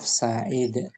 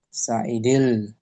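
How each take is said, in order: First: The word ends abruptly on the final consonant. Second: The word ends with an added linking -il. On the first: The speaker stops after this word. "Kalau di wakaf" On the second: It is joined to the next word. "Di wasal tuh cara baca wasal"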